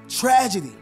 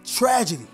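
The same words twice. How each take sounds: First: The word is said at raised volume. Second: The word is said at normal volume.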